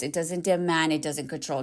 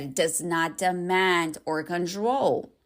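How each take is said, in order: First: Said in the usual way. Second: Slow, deliberate stress on "not demand or control"; emphatic repeat. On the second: Real, not acted. Coach repeating for ladies who missed it, slow and emphatic. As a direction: spell out "does not demand", each word drawn out. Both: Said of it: "Did you hear what I said?".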